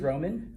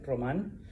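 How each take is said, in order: First: The name is said with English sounds. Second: The name is said with Spanish sounds.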